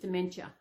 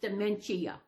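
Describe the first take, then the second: First: The 'i' vowel near the end is reduced. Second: The 'i' vowel near the end is clearly sounded.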